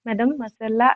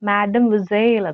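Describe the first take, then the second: First: The word ends with an added 'la' syllable. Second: The word ends with a short 'el' sound. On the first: The speaker calls it wrong. "മെഡം മൊസെല്ല എന്നല്ല പ്രൊനൗൺസ് ചെയ്യേണ്ടത്" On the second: The speaker calls it right. "മാഡം വിസേൽ എന്നാണ്"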